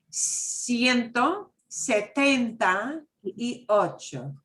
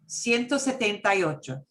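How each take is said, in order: First: The number is said slowly and carefully. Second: The number is said quickly at normal speed.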